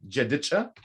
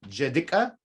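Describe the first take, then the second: First: It starts with j and ends with cha. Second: It starts with j and ends with ka. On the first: "So I'm saying this right now" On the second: "We can take this cha and make it a ka"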